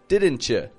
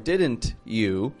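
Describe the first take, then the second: First: The t and y blend into ch. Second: The t and y sounds stay separate. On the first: The speaker calls it right. "but didn't you" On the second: The speaker calls it wrong. "or didn't you"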